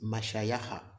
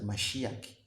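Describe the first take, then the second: First: Every consonant is followed by an open vowel. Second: The word ends on a closed consonant. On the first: The speaker calls it right. "It is Mashayaha" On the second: The speaker calls it wrong. "you have introduced S, you have introduced H, you have introduced C"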